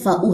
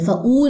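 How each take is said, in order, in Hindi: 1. स्वर की ध्वनि छोटी रखी जाती है। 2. स्वर की ध्वनि को लंबा खींचा जाता है। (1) "फ़ाऊ है" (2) "फ़ाऊ नहीं है"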